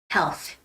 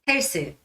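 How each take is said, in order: First: The word ends with a th sound. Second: The word ends with an s sound. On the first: The speaker calls it right. "no, health" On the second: The speaker calls it wrong. "Korean in Korean way of saying that it's 헬스"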